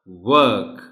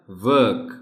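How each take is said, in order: First: ورک begun with a rounded W, R silent; ورک, round W onset and no R; second W sound. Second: ورک begun like "vuk", R silent; ورک, V-like onset and silent R; first W sound. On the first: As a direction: say ورک loudly as "wuk", lips rounded. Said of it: "دوسرا". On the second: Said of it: "ڈبلیو کی sound پر غور کیجیے گا". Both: Shown as a demonstration.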